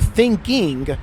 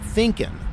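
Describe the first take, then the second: First: The word ends with a full 'ing' sound. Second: The word ends with a clipped 'in' sound. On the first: This is the full word wanted in formal writing. The speaker calls it right. "put an ing on this" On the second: This is the casual form used in everyday talk. The speaker calls it wrong. "not an in"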